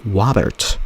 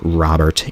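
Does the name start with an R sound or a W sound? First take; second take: W sound; R sound. First: The name starts with a W sound. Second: The name starts with a clear R sound. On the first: The speaker calls it wrong. "I couldn't say R until fifth grade" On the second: The speaker calls it right. "I can say R"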